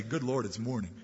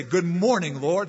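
First: Groaning dread. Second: Bright, rising good morning to the Lord; cheerful greeting. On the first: Worldly man dreading another morning, low weary groan. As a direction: lower and softer, a weary groan with a laugh. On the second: Believer greeting God each morning, bright and cheerful. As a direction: greet the day gladly, lifting at the end. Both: Pretend.

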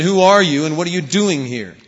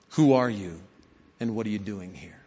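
First: Much louder, angry repeat of the challenge; louder bark. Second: Reflective delight. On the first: Soldier repeats his challenge to the rabbi, furious shout. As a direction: shout it now, losing patience. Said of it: "the bark of a Russian soldier". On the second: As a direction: ask it gently, as a lesson to keep. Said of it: "With some delight". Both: A narrator's reading.

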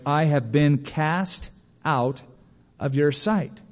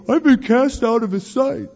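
First: Slow, drawn-out quoting of a prayer; slow prayer quote. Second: High-pitched mock wail, put-on voice; mocking complaint. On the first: Retold or imitated. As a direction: pray it word by word, with pauses. Quoting Jonah's prayer in verse. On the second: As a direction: throw his complaint back at him in a high, hammed-up voice. Mocking Jonah's complaint back at him.

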